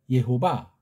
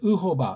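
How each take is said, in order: First: The first syllable is pronounced 'ye'. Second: The first syllable is pronounced 'ui'. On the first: It follows the written vowel points. The speaker calls it wrong. "여기 있는 모음부호를 가지고 발음하면 예호바가 가장 가까운" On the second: It follows the speaker's principle of correct sounds. The speaker calls it right. "정음의 원리로 하면 조금 더 이걸 이제 바꿔서 발음해야 되겠죠? 의호바가 되겠죠?"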